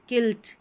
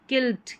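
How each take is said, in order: The two takes are said the same way.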